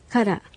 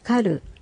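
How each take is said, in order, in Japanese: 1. この単語は'ra'の音で終わります。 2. この単語は'ru'の音で終わります。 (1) "どちらも作るという意味になります" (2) "小さいラリルレロは、地方によって、人によって、様々に発音される"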